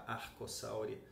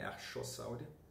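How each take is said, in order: First: The ch is said as a k sound. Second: The ch is said as an sh sound. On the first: The speaker calls it right. "C H se pronuncia K" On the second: The speaker calls it wrong. "e não X, não é Archossauria"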